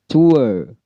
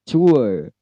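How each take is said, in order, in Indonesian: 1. Vokal meluncur yang diakhiri r yang lemah. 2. Vokal meluncur yang diakhiri r yang lemah.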